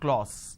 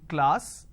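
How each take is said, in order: First: The vowel is an 'o' sound. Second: The vowel is an 'a' sound. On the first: The speaker calls it wrong. "But people make a mistake. They say k, l, o, s" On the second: The speaker calls it right. "This is how the pronunciation is"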